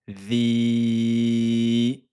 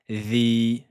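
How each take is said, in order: First: The vowel is held for four counts. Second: The vowel is held for two counts. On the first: "quatre temps" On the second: "deux temps"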